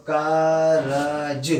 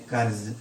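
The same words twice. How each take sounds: First: Drawn out very slowly, syllable by syllable; slow-motion syllables. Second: Said in the usual way. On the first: Shown as a demonstration. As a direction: stretch each sound of कारज slowly as a teacher. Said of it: "जब हम मिलाएंगे". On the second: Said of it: "simple वे में लिखेंगे".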